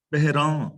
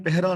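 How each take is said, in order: First: ਪਹਿਰਾਂ with a nasalised final aan; ਪਹਿਰਾਂ, last vowel nasal; correct reading ਪਹਿਰਾਂ. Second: ਪਹਿਰਾ with an un-nasal final aa; ਪਹਿਰਾ, no nasal on the last vowel; wrong reading ਪਹਿਰਾ. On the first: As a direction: let ਪਹਿਰਾਂ end through the nose. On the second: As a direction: say ਪਹਿਰਾ with an oral ending. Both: Shown as a demonstration. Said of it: "ਇਹਨੂੰ ਪਹਿਰਾ ਨਹੀਂ ਪੜ੍ਹਨਾ".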